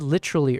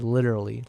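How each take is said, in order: First: The T is pronounced crisply, British-like. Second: The T is softened, American-like.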